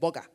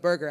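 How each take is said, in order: First: The word is said in a Nigerian accent. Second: The word is said in an American accent. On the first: "because in a Nigerian accent" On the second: "instead of burger"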